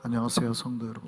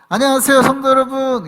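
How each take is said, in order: First: The voice is deep and low-pitched. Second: The voice is at an ordinary, normal pitch. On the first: It sounds holier to listeners. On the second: It sounds like an everyday greeting.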